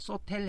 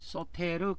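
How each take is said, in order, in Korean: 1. 이 단어는 'l' 소리로 끝나고, 추가 음절은 없습니다. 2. 이 단어는 끝에 'reu' 음절이 따로 있습니다. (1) "소텔 해도 됩니다" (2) "소테르 그렇게 발음합니다"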